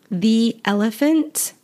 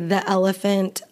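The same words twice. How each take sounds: First: The word 'the' is said with a long 'ee'. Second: The word 'the' is said with a short 'uh'. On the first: This follows the careful general rule. "the sound E is pronounced E" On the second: This is how casual native speakers talk. "Native speakers will probably just say"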